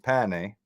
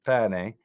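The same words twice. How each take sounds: First: The first vowel is open. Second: The same.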